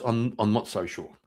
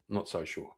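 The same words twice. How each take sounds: First: Said in the usual way. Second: Much softer repeat under the breath; quiet doubtful aside; muttered echo. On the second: Real, not acted. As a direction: say it again to yourself, trailing away.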